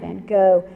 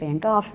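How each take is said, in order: First: The name is said the English way. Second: The name is said the Dutch way.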